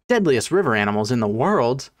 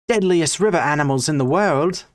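First: It is said without an Australian accent. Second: It is said in an Australian accent.

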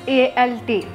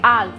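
First: It is spelled out as three separate letters. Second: It is pronounced as one single syllable. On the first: The speaker calls it wrong. "We should not pronounce it as A-L-T" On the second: The speaker calls it right. "Okay, alt"

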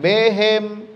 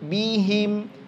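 First: The first vowel sounds like 'e'. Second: The first vowel sounds like 'i'. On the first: The speaker calls it wrong. "jangan behem" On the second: The speaker calls it right. "I bunyinya, bukan e"

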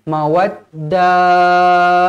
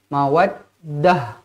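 First: The final sound is drawn out long. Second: The final sound stops abruptly and short. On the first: The speaker calls it wrong. "Jangan mawaddah. Ha. Panjang pun tak boleh" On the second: The speaker calls it right. "Berhenti terus macam tu"

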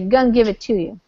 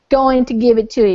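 First: Going to is reduced to gonna. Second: Going to is said in full. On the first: "You say gonna give it to you" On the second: "You don't say going to give it to you"

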